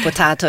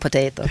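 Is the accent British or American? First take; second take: British; American. First: It is said with a British accent. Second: It is said with an American accent.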